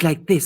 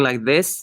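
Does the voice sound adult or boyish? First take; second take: boyish; adult. First: It is said in a young, boyish voice. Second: It is said in a normal adult voice. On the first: "boyish, a little bit more young" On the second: "instead of talking like this"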